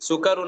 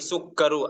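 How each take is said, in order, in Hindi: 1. k ध्वनि छोटी और एक है। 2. k ध्वनि दोहरी है और ज़्यादा देर तक रुकती है। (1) "सुकरु नहीं" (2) "काफ पर तशदीद लिखा भी हुआ है"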